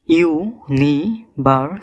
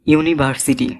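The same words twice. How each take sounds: First: university slowly split into five syllables; university broken up for learners, one syllable at a time. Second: Said in the usual way. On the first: Shown as a demonstration. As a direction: say university very slowly, a pause after each syllable. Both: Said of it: "পাঁচটি syllable রয়েছে".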